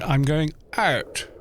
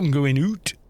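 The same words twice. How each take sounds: First: The phrase is said with a southern vowel. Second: The phrase is said with a far northern vowel. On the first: This is a later development after the Norman conquest. "is like an A sound for the U" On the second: This is closer to how English was originally spoken. "They say, "Oh, I'm going out," is in fact closer to how it was originally spoken"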